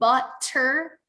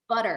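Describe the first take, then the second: First: The middle consonant is a clear, slow T. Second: The middle consonant is a quick D-like tap. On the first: The speaker calls it wrong. "you're not saying it quite right" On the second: The speaker calls it right. "it's got to be fast"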